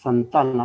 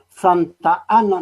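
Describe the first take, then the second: First: The name runs together as one word. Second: The name is split into two separate words. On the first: The speaker calls it right. "una sola palabra, Santana" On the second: The speaker calls it wrong. "no, esto está mal"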